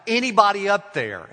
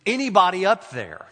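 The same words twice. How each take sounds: First: Much higher and louder desperate yell; the hiker yelling up the cliff again. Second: Shouting up a cliff, higher and louder; a stranded hiker's cry for help; screaming for help. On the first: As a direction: yell up as loud as you can. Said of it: "He yells out". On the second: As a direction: call out desperately upward. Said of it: "screams it". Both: A narrator's reading.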